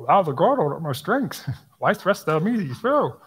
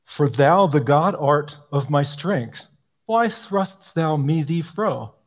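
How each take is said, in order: First: Higher, laughing through the tangled words; mock Yoda reading. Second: Slow, solemn reading of "thrustst thou me thee fro"; slow archaic recitation. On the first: Speaker mocking the Yoda-like psalm wording, laughing and high. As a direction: giggle while reciting the garbled line. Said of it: "Yoda, basically". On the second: Speaker quoting the clumsy old psalter wording, slow and grave. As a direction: read the old lines with deliberate weight. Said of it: "What did I just say?". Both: Shown as a demonstration.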